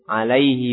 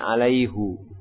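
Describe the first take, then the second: First: The word ends in an 'i' vowel. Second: The word ends in an 'u' vowel. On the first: The speaker calls it right. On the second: The speaker calls it wrong. "bukan alaihu"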